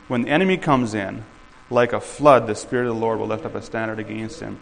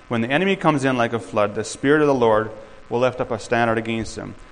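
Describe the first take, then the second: First: The pause comes after the word in. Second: The pause comes after the word flood. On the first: God's help arrives like a flood. "let's move that comma, and let's read it like this" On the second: The enemy arrives like a flood. "that's normally how you do it"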